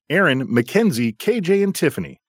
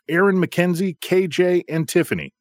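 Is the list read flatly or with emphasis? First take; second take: with emphasis; flatly. First: The names are read with strong emphasis. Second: The names are read flatly, without emphasis.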